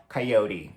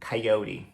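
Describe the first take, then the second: No difference in how they are said.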